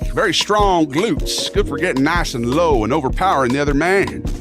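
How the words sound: It is read in a put-on Southern accent.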